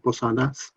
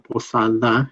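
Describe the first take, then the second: First: The name ends with a final S sound. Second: The name ends without a final S sound. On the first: The speaker calls it right. "but it is uh, Posadas" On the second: The speaker calls it wrong. "Sometimes people say Posada and drop off the S"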